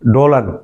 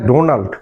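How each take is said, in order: First: The name is said with an L, as Dolan. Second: The name is said with an N, as Donald. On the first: The speaker calls it wrong. "উচ্চারণ করে ডোলান" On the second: The speaker calls it right. "ডোনাল্ড কোথায় ডোনাল্ড"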